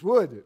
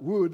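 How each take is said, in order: First: "Wood" loud, with a short English oo as in good; correcting pronunciation. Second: "Wood" with a long oo, as wooed, Filipino style; Filipino-style long vowel in "Wood"; Filipino accent. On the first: Shown as a demonstration. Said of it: "it's Wood". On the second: Retold or imitated. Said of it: "my name's not Wood".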